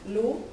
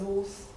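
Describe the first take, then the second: First: The syllable is pronounced the French way. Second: The syllable is pronounced the German way. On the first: "the French" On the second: "for German"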